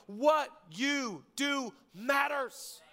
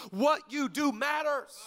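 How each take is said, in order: First: What stretched slowly and shouted; stress on what. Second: What firmly stressed, slow. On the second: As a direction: lean on what in "What you do matters". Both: Shown as a demonstration.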